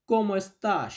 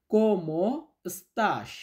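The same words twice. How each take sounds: First: Said in the usual way. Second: Very slow dictation. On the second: Shown as a demonstration. Teacher to students, slow model phrase to repeat. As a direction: stretch each syllable, very slow. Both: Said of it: "আমার সাথে সাথে বলুন তো".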